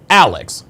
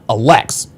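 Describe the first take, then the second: First: The stress is on the first syllable. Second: The stress is on the second syllable. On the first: The speaker calls it right. "The accent is on the first part" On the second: The speaker calls it wrong. "not Alex"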